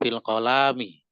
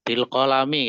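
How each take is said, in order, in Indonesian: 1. Vokal setelah L panjang. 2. Vokal setelah L pendek. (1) "Jadi bukan bil kolami" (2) "lamnya pendek"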